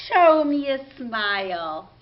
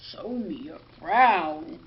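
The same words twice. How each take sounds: First: Bright and a bit louder, all smiles; cheerful smiley voice. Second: Much lower and slower, sulky; grumpy frown voice. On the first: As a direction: say it through a big smile. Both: Shown as a demonstration.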